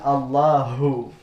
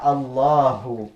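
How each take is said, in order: First: The final ha sound is strong and heavy. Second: The final ha sound is soft and light. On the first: The speaker calls it wrong. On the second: The speaker calls it right. "ketika dia berharakat tidak"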